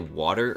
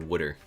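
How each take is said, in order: First: The first vowel sounds like 'wah'. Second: The first vowel sounds like 'wood'.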